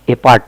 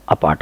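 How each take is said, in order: First: "ए पार्ट" said wrongly as ay-part; full ay opening on "ए पार्ट"; initial "ay". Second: "अपार्ट" said uh-part; initial short "uh". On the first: Teacher showing what not to say, ay-part pronunciation. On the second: Teacher modelling the word, uh-part pronunciation. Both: Shown as a demonstration. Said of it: "ए पार्ट नहीं बोलेंगे".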